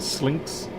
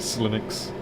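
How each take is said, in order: First: The word is said with one syllable. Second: The word is said with two syllables. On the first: This is how it probably should be said. The speaker calls it right. "I suppose it should be actually Slinks" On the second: This is the speaker's habitual way of saying it. The speaker calls it wrong. "I always say Slinux"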